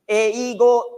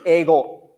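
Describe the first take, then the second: First: The first vowel is sounded separately as e-i. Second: The first vowel is one long e sound. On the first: This is how the word is written in kana. "English uh, 英語" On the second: This is how the word is actually spoken. "pronunciation is 英語 straight straight"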